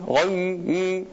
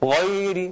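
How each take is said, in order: First: The 'y' sound is wider, with the jaw lowered. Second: The 'y' sound is narrow, with the jaw held high. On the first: The speaker calls it right. "harus menurunkan rahang sedikit" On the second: The speaker calls it wrong. "tidak dibaca ghairi"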